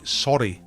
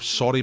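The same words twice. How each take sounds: First: The word is said clearly, with careful articulation. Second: The word is said casually, without careful articulation. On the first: It is easy for a non-native listener to follow. The speaker calls it right. "He'd be all clear. He'd enunciate" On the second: It is an offhand apology between mates. The speaker calls it wrong. "you wouldn't say it like that"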